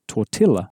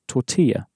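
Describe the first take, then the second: First: The double L is said as an L sound. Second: The double L is said as a Y sound. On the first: The speaker calls it wrong. "If we were pronouncing this like a normal English word, we'd pronounce it as tortilla. But we don't" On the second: The speaker calls it right. "two L's in Spanish are always pronounced as a sort of y sound"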